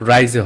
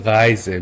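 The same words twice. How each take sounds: First: "রাইজে" with an English R, not from the throat; English-style R. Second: "রাইজে" opening on a back-of-throat German R; throaty German R. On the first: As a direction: show the mistake: "রাইজে" with a front R. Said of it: "এটা রাইজে হবে না". ("রাইজে" ইংলিশের মতো সাধারণ র দিয়ে) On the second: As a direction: bring the R of "রাইজে" from inside the throat. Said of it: "ভিতর থেকে আসবে". ("রাইজে" গলার ভিতর থেকে জার্মান র দিয়ে) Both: Shown as a demonstration.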